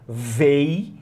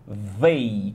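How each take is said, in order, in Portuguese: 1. A palavra começa com o som de 'v'. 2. A palavra começa com o som de 'th'. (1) "véi com V de velho" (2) "com o som correto"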